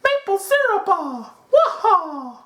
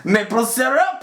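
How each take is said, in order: First: Very high cartoon Italian plumber voice; Mario. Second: High, exaggerated mock French-Canadian accent. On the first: Host parodying his own maple syrup line, high Mario voice. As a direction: squeal it out like a video game hero. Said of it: "it sounded like Mario". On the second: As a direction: ham up a cartoonish French accent, pitched way up. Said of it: "Just the stereotypical".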